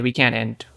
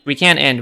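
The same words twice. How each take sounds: First: Said in the usual way. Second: Louder warning to the team; shouting an urgent warning to teammates; urgent call. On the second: Real, not acted. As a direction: call it out so they hear you. Warning teammates mid-fight.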